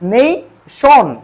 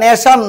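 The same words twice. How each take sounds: First: The first vowel glides from 'e' to 'i'. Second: The first vowel is a plain short 'e'. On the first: The speaker calls it right. "এটা হবে কি নেশন" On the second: The speaker calls it wrong. "এটা নেশন নয়"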